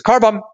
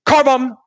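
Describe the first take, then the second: First: Sudden loud call-out; call out car bomb. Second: High, loud warning shout; sharp alarm call, much higher; shouted car bomb. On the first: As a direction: blurt it out to stop the fight. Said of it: "the first person to realize goes". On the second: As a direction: yell it to stop the fight. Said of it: "she goes". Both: Retold or imitated.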